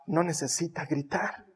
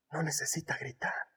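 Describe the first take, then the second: First: Said in the usual way. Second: Whispered No necesita gritar. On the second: Shown as a demonstration.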